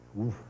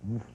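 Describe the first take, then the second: First: The vowel is an 'i' sound, like whiff. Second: The vowel is an 'oo' sound, like a dog's bark. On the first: This is how the philosophy of science colleagues say it. "woof with an I" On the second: This is how the speaker first learned to say it. "woof like a dog"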